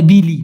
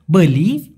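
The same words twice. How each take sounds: First: বিলি said as bi-li with an i sound; বিলি, the wrong form many people use; common mistake. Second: বলি said as bo-li, short o sound; বলি with an o, not an i; correct pronunciation. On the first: Teacher showing the mistaken form বিলি. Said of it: "অনেকে বলে বিলি". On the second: Teacher demonstrating the right form of বলি. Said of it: "হবে হচ্ছে বলি". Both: Shown as a demonstration.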